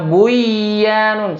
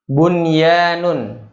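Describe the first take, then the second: First: The n merges into the following y sound. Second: The n is pronounced clearly before the y. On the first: The speaker calls it wrong. "Misalnya buyanun, salah" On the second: The speaker calls it right. "tapi bun dibacanya"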